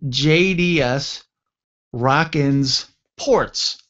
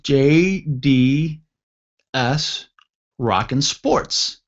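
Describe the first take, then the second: First: The s sound ends the word Rockin. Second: The s sound begins the word Sports. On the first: The name refers to shipping ports. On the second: The name refers to sports.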